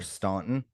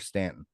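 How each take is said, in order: First: The name is said the way it's spelled. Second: The name is said the common spoken way. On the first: "but it's spelled Staunton" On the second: "I say Stanton too because that's how normal people say it"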